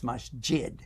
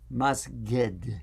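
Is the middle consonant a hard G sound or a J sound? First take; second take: J sound; G sound. First: The middle consonant is a J sound. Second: The middle consonant is a hard G sound. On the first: This is the standard form of the word. "you know it was masjid" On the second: This is how Egyptian speakers say it. "they like to pronounce the J sound as a G"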